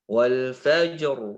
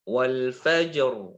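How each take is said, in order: No difference in how they are said.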